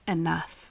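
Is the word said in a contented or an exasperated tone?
contented. The word sounds calm and contented. There is a sufficient amount. The speaker calls it right. "I'm saying enough. Like, I have enough"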